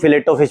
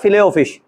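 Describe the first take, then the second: First: The word is said with a 't' sound. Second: The word is said without a 't' sound. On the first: The speaker calls it wrong. "डेढ़ दो साल तक उसको फिलेटो fish बोला है" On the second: The speaker calls it right. "फिश फिले में टी silent होता है"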